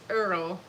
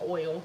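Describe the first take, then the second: First: It is said in a Southern, 'Earl'-like way. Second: It is said in a standard, 'oil'-like way.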